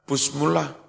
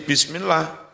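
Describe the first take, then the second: First: The first syllables are said with a 'u' vowel. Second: The first syllables are said with an 'i' vowel. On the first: The speaker calls it wrong. "enggak pernah busmullah" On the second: The speaker calls it right. "maksuratun dibaca kasroh"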